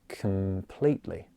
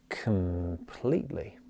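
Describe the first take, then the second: No difference in how they are said.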